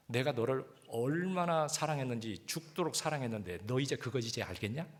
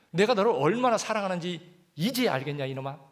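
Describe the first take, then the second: First: Slow, gentle reading of the Lord's words; slow tender question. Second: Loud, higher, forceful Lord's question; loud fond rebuke. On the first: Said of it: "그 말씀이 그렇게 들리는 게 뭐라고 들리냐면". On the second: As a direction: call it out like a loving scolding father. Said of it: "야". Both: Shown as a demonstration.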